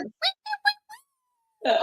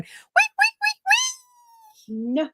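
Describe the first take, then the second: First: Squealing wait. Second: Very high squeaky wait wait; imitating Piggy. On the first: Retold or imitated. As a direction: squeak it all the way down. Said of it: "I would've gone". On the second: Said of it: "he's riding around going".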